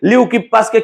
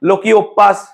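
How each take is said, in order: First: The name begins with a 'lew' sound. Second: The name begins with a 'lo' sound. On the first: The speaker calls it right. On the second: The speaker calls it wrong.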